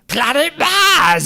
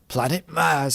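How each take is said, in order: First: It is said in a put-on character voice. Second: It is said in the speaker's normal voice. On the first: "are you gonna you gonna do the voice?" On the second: "I'm not doing it"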